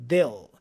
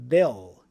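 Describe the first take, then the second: Both takes have the same delivery.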